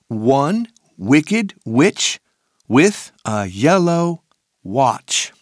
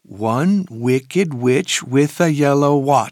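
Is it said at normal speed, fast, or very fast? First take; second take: normal speed; fast. First: It is said at a normal speed. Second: It is said faster than normal.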